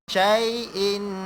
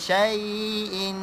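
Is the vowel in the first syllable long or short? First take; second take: short; long. First: The first vowel is kept short. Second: The first vowel is drawn out long. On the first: The speaker calls it right. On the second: The speaker calls it wrong.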